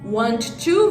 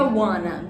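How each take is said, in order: First: Both words are said in full. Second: The words blend into one reduced form.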